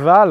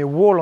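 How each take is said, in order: First: The word is said with German pronunciation. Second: The word is said with English pronunciation. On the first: "Wall en allemand" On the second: "wall en anglais, puisque le W, on change la prononciation en anglais"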